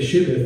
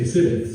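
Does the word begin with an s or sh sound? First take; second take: sh; s. First: The word begins with a sh sound. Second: The word begins with an s sound. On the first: The speaker belongs to a group that can say sh. "These people say shibith" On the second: The speaker belongs to a group that cannot say sh. "Some people can't say the sh sound"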